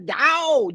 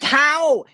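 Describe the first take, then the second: First: The word starts with a D sound. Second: The word starts with a T sound. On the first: The speaker calls it right. "It is the Tao" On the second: The speaker calls it wrong. "not the Tao"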